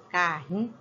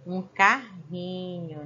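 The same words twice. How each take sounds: First: Carrinho, with the throaty rr; strong R in carrinho. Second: Carrinho, with a guttural rr said slowly; strong R in carrinho. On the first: Teacher repeating the word so the class hears the double R. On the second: Teacher showing pupils the strong double R sound, slow and clear. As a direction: stretch out carrinho with a strong throaty rr. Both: Shown as a demonstration. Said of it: "olha só a pronúncia dos dois R".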